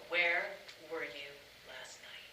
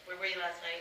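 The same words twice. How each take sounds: First: It is said with expressive feeling behind it. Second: It is said flat, like a robot. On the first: The speaker calls it right. "I want you to know I was waiting until ten o'clock" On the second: The speaker calls it wrong. "It's not going to come out like a robot"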